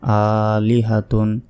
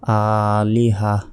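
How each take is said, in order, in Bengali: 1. শব্দটি পূর্ণ 'tun' ধ্বনি দিয়ে শেষ হয়। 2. শব্দটি ছোট 'h' ধ্বনি দিয়ে শেষ হয়। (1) "ta দুই পেশ তুন" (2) "এখানে যদি থামি তাহলে ... ছোট হার উচ্চারণ হবে এবং শেষ অক্ষরে সাকিন দিতে হবে"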